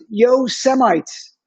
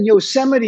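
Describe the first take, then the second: First: The word ends in an s sound. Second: The word ends in a vowel sound. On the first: The speaker calls it wrong. "he pronounced it Yosemites" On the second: The speaker calls it right. "Instead of saying Yosemite"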